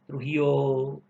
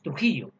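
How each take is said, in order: First: The word is drawn out and lengthened. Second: The word is said at normal length. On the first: This is how people from Trujillo say it. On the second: This is not how people from Trujillo say it. "No decimos"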